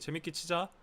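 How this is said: It is said in a Seoul accent.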